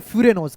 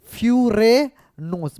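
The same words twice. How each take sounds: First: Said in the usual way. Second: Furanose drawn out slowly in separate syllables; syllable-by-syllable repeat. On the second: Shown as a demonstration. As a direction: break furanose into slow fu-ra-nose for the class. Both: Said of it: "क्या बोलते हैं?".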